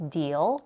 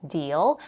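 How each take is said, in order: No difference in how they are said.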